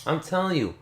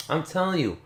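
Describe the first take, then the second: No difference in how they are said.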